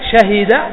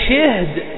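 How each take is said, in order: First: The first consonant has a, the second has i. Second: The first consonant has i, the second is vowelless. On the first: This is the common standard form. "نقول شاهي شهد" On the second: This is a dialect variant. "بسكون الهاء وكسر الأول"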